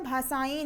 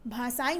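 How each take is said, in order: First: भाषाएं ending in open "ain"; mispronounced भाषाएं. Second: भाषाएं ending in nasal "en"; correct भाषाएं. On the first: Teacher rejects the wrong form, भाषाएं ending in ai. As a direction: widen the last vowel of भाषाएं to ai. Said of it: "भाषाएं नहीं होता है". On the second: Teacher confirms the right form, भाषाएं as bhashaen. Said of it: "भाषाएं होता है". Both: Shown as a demonstration.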